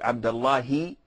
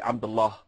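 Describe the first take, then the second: First: The name ends with an added 'i' vowel. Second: The name ends on 'ah' with no added vowel. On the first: The name runs on into the following words. "if you wanna connect it with a word afterwards" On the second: The name stands alone before a pause. "if you're gonna pose, you have to say Abdullah"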